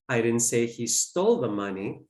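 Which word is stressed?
stole. The word 'stole' is stressed. He may have borrowed it instead. "Maybe he borrowed it"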